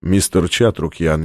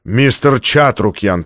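First: Icy voice. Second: Said in the usual way. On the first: A narrator's reading. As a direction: say the name with chilling calm. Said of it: "в его голосе звучали ледяные нотки".

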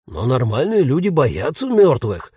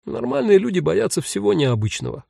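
First: Indignant ghost with swooping emphatic pitch; exclaiming. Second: Higher, mildly amused reply; smiling. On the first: Ghost protests to unafraid Jen, exclaiming indignantly. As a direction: protest it as an obvious truth. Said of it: "воскликнул призрак". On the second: Jen answers the indignant ghost, lightly smiling. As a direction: correct him with a light smile. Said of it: "улыбнулась Джен". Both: A narrator's reading.

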